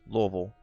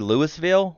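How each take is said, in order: First: The first part is reduced in the local way. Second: The first part sounds like the full name Louis. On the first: This is how the locals say it. The speaker calls it wrong. "we call it Louisville" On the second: This follows the name the city came from. The speaker calls it right. "it's supposed to be Louisville"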